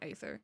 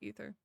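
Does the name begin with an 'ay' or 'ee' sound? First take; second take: ay; ee. First: The name begins with an 'ay' vowel sound. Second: The name begins with an 'ee' vowel sound. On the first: The speaker calls it wrong. "Not Aether" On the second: The speaker calls it right. "It's Ether, though"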